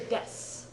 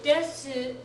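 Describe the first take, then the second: First: The final u vowel is dropped. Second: The final u vowel is fully pronounced. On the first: "most of the time you hear des" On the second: "although technically correct, is not the way most Japanese people say it"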